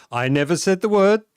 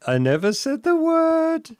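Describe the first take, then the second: First: Said in the usual way. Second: Squeaky indignant denial; high-pitched protest. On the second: Real, not acted. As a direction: shoot the voice up in protest. Protesting accusation.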